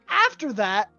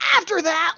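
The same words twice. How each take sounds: First: It is said in the speaker's normal voice. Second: It is said in Samander's character voice.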